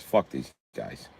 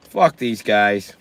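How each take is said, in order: First: Slow, low and soft under the breath; muttered aside. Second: Slow, spoken out plainly; dismissive. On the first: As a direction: mumble it to yourself. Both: Acted.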